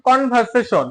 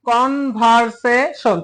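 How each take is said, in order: First: Said in the usual way. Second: Slow "কনভারসেশন" with a break after each syllable. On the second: Shown as a demonstration. Teacher counting syllables in কনভারসেশন, syllable by syllable. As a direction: spell out "কনভারসেশন" by its four sounded parts. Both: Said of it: "কনভারসেশনে মোট তিনটারও বেশি syllable আছে".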